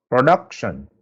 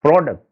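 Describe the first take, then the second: First: "production" stressed on the middle syllable; stress on DUC. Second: "product" stressed on its first syllable; stress on PRO. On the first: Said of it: "I am stressing the sound". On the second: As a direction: hit "pro" in "product", let the rest fall. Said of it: "I am stressing the word pro". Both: Shown as a demonstration.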